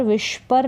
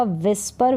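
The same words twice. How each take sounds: First: विस्पर said as "vishpar"; sh mispronunciation. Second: विस्पर with a plain s; plain s sound. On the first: English teacher showing what to avoid, sh-sound विस्पर. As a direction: put sh in place of the s in विस्पर. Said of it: "विस्पर नहीं पढ़ेंगे". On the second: English teacher modelling whisper, plain-s विस्पर. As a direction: say विस्पर as "vis-par", s not sh. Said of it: "इसको पढ़ा जाएगा विस्पर". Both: Shown as a demonstration.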